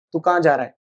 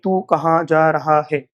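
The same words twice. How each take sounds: First: "तू कहाँ जा रहा है" blurred quickly into "तू का जा रा है"; natural connected. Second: Slow, every word of "तू कहाँ जा रहा है" said separately and fully. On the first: Teacher showing how people really say it, relaxed and connected. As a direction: run the words together casually, with a falling tune. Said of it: "कैसे बोलते हैं?". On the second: Teacher mocking how nobody actually talks, slow and stiff. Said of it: "कोई नहीं बोलता है guys ऐसे". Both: Shown as a demonstration.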